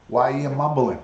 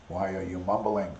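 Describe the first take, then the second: First: Said in the usual way. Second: Mumbled imitation. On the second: Shown as a demonstration.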